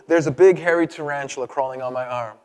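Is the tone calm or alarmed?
calm. It is said calmly, without concern.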